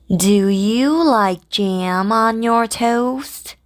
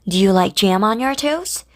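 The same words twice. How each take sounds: First: The sentence is spoken at a slow pace. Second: The sentence is spoken at a fast pace. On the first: "천천히 먼저 해볼게요" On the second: "빨리"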